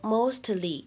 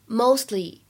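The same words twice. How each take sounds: First: The t is fully and audibly released. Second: The t is formed but not audibly released. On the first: The speaker calls it wrong. "大家不要把它读成mostly" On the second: The speaker calls it right. "应该把这个t 只做了发音的口型，但是没有发出声音来"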